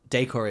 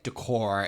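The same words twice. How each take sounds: First: It is said with a British pronunciation. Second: It is said with an American pronunciation. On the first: "Decor is U K" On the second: "decor is American"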